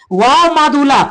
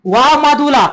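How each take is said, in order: Both takes have the same delivery.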